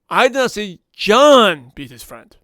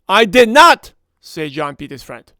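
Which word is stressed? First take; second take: John; not. First: The word John carries the main stress. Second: The word not carries the main stress. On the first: A different person beat the friend. "That was David that be his friend" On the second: The claim is firmly denied. "That does a very emphasis on the statement"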